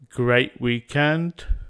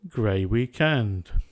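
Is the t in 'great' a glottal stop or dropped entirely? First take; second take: glottal stop; dropped. First: The t is replaced by a glottal stop. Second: The t is dropped with no glottal stop. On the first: The speaker calls it right. "Delete t with a glottal stop" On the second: The speaker calls it wrong. "Without a glottal stop"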